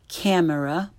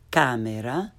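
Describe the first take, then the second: First: "camera" as the English word, short a; learner's mispronunciation. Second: "camera" with open ah, lower, rising end; correct Italian pronunciation. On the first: Teacher shows beginners' mistake, English "camera". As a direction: say "camera" with cam as in cat. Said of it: "first the way most people". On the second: Teacher corrects beginners, "camera" with Italian ah. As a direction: say "camera" as KAH-meh-rah. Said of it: "follow it with the correct pronunciation". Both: Shown as a demonstration.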